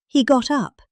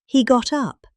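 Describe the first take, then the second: No difference in how they are said.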